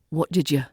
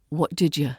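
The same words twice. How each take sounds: First: The words run together with a softened D. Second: The words run together with a softened D.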